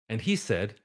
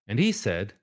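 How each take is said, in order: The two takes are said the same way.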